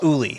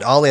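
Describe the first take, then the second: First: The name begins with a rounded 'oo' vowel. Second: The name begins with an open 'ah' vowel. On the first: The speaker calls it right. "It was pronounced Uli" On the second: The speaker calls it wrong. "They didn't pronounce it Ollie"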